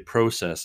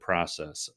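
First: It is said with a Canadian pronunciation. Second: It is said with an American pronunciation.

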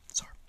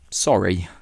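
First: It is quiet and clipped, almost one syllable. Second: It is said fully, with both syllables.

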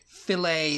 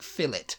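First: It is said the American way, like fi-lay. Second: It is said the British way, like fill-it.

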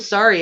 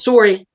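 First: It is said in a standard American accent. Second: It is said in a Canadian accent.

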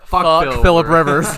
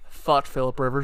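First: It is said louder than before. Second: It is said at normal loudness.

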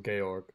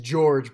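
First: The name is said the German way. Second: The name is said the English way. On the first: "but German, so Georg" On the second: "It's George"

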